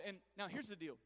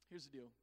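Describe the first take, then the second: First: Said in the usual way. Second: "Here's the deal" repeated much softer and lower; dropped to a hush. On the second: Shown as a demonstration. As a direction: let "Here's the deal" fall away to near a hush.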